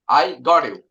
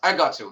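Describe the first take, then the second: First: Got and you are said as separate words. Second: Got and you blend together like gotcha. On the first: "In our country, we usually say" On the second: "native speaker saying I got you. They pronounce like G G A S S"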